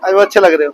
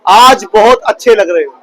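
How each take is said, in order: First: It sounds half-hearted and insincere. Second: It sounds warm and heartfelt.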